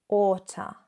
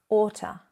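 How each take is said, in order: No difference in how they are said.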